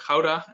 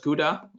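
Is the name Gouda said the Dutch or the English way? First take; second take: Dutch; English. First: The name is said with Dutch sounds. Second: The name is said with English sounds. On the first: This is the form locals use. "as we pronounce it" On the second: This is the form foreigners know. "what you probably know as"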